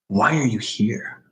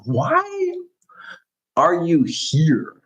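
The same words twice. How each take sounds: First: The question is said in a plain, low-energy way. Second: The question is said with lively, enthusiastic energy.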